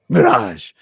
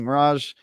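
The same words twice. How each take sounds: First: The word is said in an exaggerated, put-on voice. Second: The word is said in a plain, normal voice. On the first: The speaker calls it right. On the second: The speaker calls it wrong.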